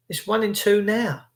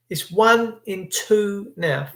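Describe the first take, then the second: First: Said in the usual way. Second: Slowed, weight on "one"; slow emphatic repeat with "one" punched; stress on one. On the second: Shown as a demonstration. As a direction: lean hard on "one" and draw it out.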